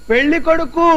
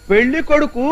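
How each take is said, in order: First: Raised to a deaf ear; repeating పెళ్లి కొడుకు louder to a deaf woman. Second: Said in the usual way. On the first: Acted. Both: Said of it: "గట్టిగా చెప్పండి".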